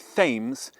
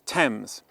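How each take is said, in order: First: The word begins with a 'th' sound. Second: The word begins with a plain 't' sound. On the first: The speaker calls it wrong. "Don't say Thames" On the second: The speaker calls it right. "it's Thames"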